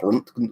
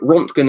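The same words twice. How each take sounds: First: The name has a German-style vowel and sounds. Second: The name has an English-style vowel and sounds. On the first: "the Germans pronounce it so like the proper pronunciation is probably Rontgen" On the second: "how we normally say it in the U K correctly"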